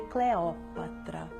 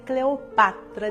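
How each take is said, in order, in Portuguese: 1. O acento cai na segunda sílaba. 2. O acento cai na terceira sílaba. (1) "essa pronúncia condizente com a lição dos clássicos" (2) "dicção mais moderna"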